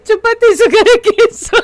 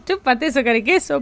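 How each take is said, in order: First: Higher, louder playground taunt; sing-song it like a cheeky kid; mock taunt. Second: Said in the usual way. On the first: Shown as a demonstration. Streamer hams up the taunt for chat, teasing. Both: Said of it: "Lo voy a hacer".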